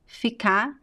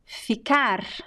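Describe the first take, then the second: First: The final r sound is dropped. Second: The final r sound is pronounced. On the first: "We drop the last R of a verb and then you just add the, you just pronounce the vowel" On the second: "instead of saying ficar"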